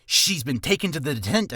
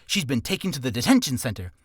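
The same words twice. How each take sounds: First: "detent-" tripped over and cut off; tongue slip. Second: "detention" landed cleanly after the slip; clean retake. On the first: Tongue twister demo, tripping mid-word. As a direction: stumble on "detention" and break off. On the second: Retrying the tongue twister, clear and careful. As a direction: say it through carefully and correctly. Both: Shown as a demonstration. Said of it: "uh, see?".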